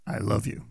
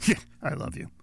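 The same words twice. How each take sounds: First: Said in the usual way. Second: "Yeah, I love you" tossed off breathy and dismissive; offhand "Yeah" that sinks the "I love you"; sarcastic. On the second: Shown as a demonstration. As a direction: say it like you don't mean it. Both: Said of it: "one's gonna get you a slap".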